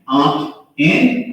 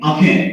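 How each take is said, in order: First: The two words are said separately. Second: The two words run together like one.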